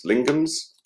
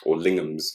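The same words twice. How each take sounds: First: "Lingham's" pitched much higher with a questioning rise; rising Lingham's. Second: Said in the usual way. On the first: Shown as a demonstration. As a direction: try "Lingham's" up high, like testing it. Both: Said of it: "and Lingham's, or Lingham's".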